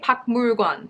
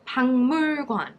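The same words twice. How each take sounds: First: The first syllable ends with a k sound. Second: The first syllable ends with an ng sound. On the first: The speaker calls it wrong. "people don't say 박물관" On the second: The speaker calls it right. "it becomes kind of like a niang sound"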